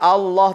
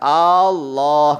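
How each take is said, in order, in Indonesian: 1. Vokal pertama tetap dibaca pendek. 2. Vokal pertama dipanjangkan. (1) "Allahnya sudah benar" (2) "yang salah Allahnya dipanjangkan"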